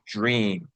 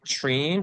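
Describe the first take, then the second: First: The word begins with a j sound. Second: The word begins with a ch sound. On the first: "It is the latter" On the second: "do you think it is ch or j?"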